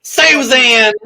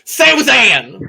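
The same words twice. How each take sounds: First: Susan! high, loud Southern call; Southern accent. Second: Susan! high, loud with Southern vowels; Southern accent. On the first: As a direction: lean into a Southern twang. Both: Shown as a demonstration. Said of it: "I just lean into my southern accent".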